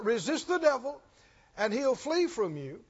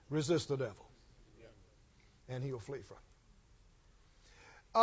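First: Quoting only the familiar half, brisk and easy; how it's usually quoted. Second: Much lower and softer, slowed right down; quiet and slow. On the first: Preacher mocking how believers usually quote it. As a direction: toss off the popular half of the verse. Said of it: "it's usually quoted just like". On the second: Preacher quoting God's words, low and slow. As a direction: let the promise land gently and slowly. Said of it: "and then He says". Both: Shown as a demonstration.

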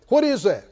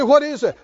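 First: Said in the usual way. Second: The question said again a little louder; louder repeat. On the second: Shown as a demonstration. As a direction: repeat it with more force. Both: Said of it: "I said".

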